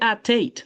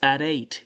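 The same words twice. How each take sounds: First: The t is said as a clear t. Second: The t is said like a soft d. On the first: The speaker calls it wrong. "don't say at eight" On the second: The speaker calls it right. "you pronounce it as if it were a D"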